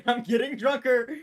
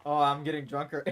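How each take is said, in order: First: Laughing, higher and louder exclamation. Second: Said in the usual way. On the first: Real, not acted. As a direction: burst out laughing, slow and loud.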